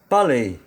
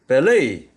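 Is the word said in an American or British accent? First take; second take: British; American. First: It is said in a British accent. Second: It is said in an American accent. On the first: "영국식 발음으로는" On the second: "미국식 발음으로는"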